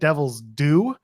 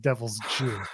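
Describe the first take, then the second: First: The last word begins with a clear 'd' sound. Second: The last word begins with a 'j' sound. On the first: This is the intended title. The speaker calls it right. "he said "Devil's Due."" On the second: This is how the accent made it sound. The speaker calls it wrong.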